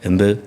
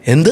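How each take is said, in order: First: The word is said flatly, without surprise. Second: The word is said with amazed surprise. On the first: The question carries no real effect. The speaker calls it wrong. "അല്ലാണ്ട് എന്ത് എന്ന് ചോദിച്ചാൽ ... ഇഫക്റ്റില്ല" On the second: The speaker is truly astonished. The speaker calls it right. "ആശ്ചര്യം പ്രകടിപ്പിക്കുകയാണെങ്കിൽ എന്ത് എന്ന് തന്നെ ചോദിക്കണം"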